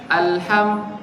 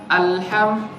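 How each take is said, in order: No difference in how they are said.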